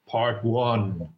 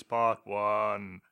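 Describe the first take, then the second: First: Big ominous voice. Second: God voice. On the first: Shown as a demonstration. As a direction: announce it like God from above. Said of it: "use a really big, ominous voice". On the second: Pretend. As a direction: proclaim it like a god. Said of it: "Can you do a God voice".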